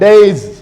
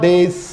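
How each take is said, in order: First: The final sound is a buzzing z. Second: The final sound is a hissing s. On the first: The speaker calls it right. "So plural S is being pronounced as Z" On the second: The speaker calls it wrong. "this is not days. S, s is not pronounced"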